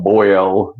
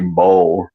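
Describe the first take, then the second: First: Put-on boil stretched to BOY-ul, slow; exaggerated standard pronunciation. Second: Boil as "bowl", no oy sound; Southern pronunciation. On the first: Southerner mocking the correction, boil as slow BOY-ul. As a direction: overdo the oy in boil, drawn out. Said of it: "boiled, not bold". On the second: Southerner defending home speech, boil said as bowl. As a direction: say boil as one syllable, like bowl. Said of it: "but you, you boil your water". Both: Shown as a demonstration.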